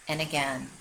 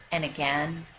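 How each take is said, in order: Both takes have the same delivery.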